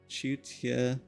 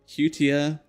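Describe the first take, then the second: First: The word begins with a ch sound. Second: The word begins with an h sound. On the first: The speaker calls it right. "so it's the C is not silent" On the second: The speaker calls it wrong. "I'm guessing the C is silent"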